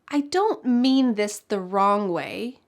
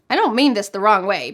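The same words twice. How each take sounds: First: It is said in a careful, thoughtful tone. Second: It is said fast in an uncaring tone. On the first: The speaker does not want to offend. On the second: The speaker does not care about offending.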